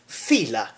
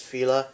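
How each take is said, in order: First: The name is said in an exaggerated foreign accent. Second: The name is said in a plain, ordinary accent. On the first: "pronounce it in an outrageous accent" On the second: "I think it's Fila"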